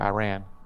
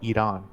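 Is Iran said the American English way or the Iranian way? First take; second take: American English; Iranian. First: It is said with an American English pronunciation. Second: It is said with an Iranian-style pronunciation. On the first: This is the speaker's own everyday pronunciation. "I say Iran" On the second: This is how people from the country say it. "Iranians pronounce it Iran"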